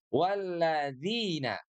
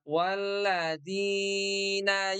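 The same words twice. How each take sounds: First: The long vowel is held for two beats. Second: The long vowel is stretched too far. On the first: The speaker calls it right. "panjangnya pun juga dua harokat saja" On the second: The speaker calls it wrong. "jangan terlalu panjang. Tidak walladzina ... tidak begitu ya"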